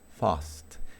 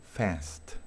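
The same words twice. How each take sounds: First: The vowel is an open, broad 'ah' sound. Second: The vowel is a closer, almost nasal 'a'. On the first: "Inglés británico" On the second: "Inglés americano"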